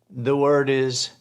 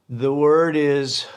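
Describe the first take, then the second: The two takes are said the same way.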